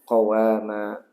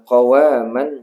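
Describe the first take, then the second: First: The word ends in a long a vowel. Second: The word ends with an n sound.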